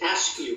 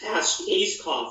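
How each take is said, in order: First: The name is said like 'ask-you'. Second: The name is said as it is spelled. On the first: "the British pronounce it Askew" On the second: "It's pronounced Ayscough"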